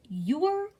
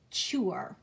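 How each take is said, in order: First: "your" said slowly as yure, starting with a y glide; letter-sound demo. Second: "chure" said slowly and lower, starting with ch; letter-sound demo. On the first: Teacher giving the sound of U R E, "your" said slowly as yure. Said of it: "it says your". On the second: Teacher giving the sound of T U R E, "chure" slow with a ch start. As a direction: say "chure" slowly, with ch before the ure. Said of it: "it says chure". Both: Shown as a demonstration.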